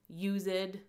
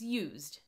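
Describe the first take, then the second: First: The word is said as two syllables. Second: The word is said as one syllable. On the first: "sometimes those past tenses have to be pronounced that way to make it match the desired meter" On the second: "It's used"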